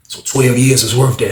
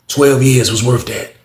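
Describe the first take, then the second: First: Said in the usual way. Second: "Twelve years was worth that" said slowly, leaning on "Twelve"; slow stress on twelve. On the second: Retold or imitated. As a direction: drag it out, hitting "Twelve". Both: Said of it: "He was like".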